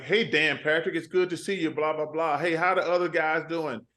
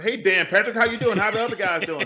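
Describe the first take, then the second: First: Said in the usual way. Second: Hurried, higher-pitched commercial greeting; retold attempt at going faster; sped-up retake. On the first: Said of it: "I'm talking like". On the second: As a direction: rattle off the greeting brighter and quicker. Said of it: "you gotta go faster".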